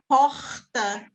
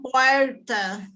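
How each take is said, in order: First: The R is made at the back of the throat. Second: The R has the regional interior São Paulo sound.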